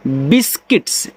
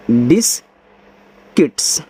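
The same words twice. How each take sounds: First: Said in the usual way. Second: बिस्किट्स stretched out slowly, syllable by syllable; slow model word. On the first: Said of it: "इसको पढ़ते हैं". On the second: Shown as a demonstration. Teacher spells बिस्किट्स slowly for pupils to repeat. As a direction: drag out बिस्किट्स so the pupil hears every sound. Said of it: "ऐसे".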